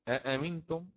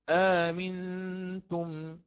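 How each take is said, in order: First: Two separate glottal stops begin the word. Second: The second hamza becomes a long a vowel. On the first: "أصلها أأمنتم" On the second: "نقرأ آمنتم"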